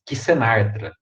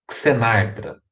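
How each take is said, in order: First: The first letter sounds like ks. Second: The first letter sounds like ks.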